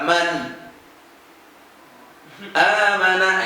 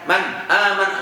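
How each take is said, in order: First: A long pause comes between the two words. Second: The words run together with no pause. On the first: "Kalau terlalu lambat" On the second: "Kalau terlalu cepat"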